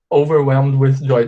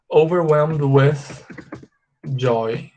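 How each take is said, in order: First: Said in the usual way. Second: OVERWHELMED WITH JOY spaced out, pause before JOY; slow demonstration. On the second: Shown as a demonstration. Teacher shows the longer phrase to students, slowly. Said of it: "aumentam falando assim".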